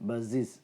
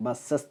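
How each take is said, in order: First: ബസ്സസ് said as "buz-ziz", short i, buzzed z; softer corrected model, ബസ്സസ് ending in -ziz. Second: ബസ്സസ് said as "bus-sas", open a and hissed s; the local way, ബസ്സസ് ending in -sas; common mispronunciation. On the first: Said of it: "അങ്ങനെയാണ് പറയേണ്ടത്". (ബസ്സസ്, "ബസ്സിസ്" എന്ന്, z ശബ്ദം) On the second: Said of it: "എന്ന് നമ്മൾ പറയും". (ബസ്സസ്, അവസാനം "സസ്") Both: Shown as a demonstration.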